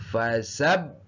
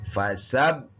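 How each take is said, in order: No difference in how they are said.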